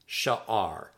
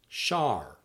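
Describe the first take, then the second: First: The word is said as two syllables. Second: The word is said as one syllable.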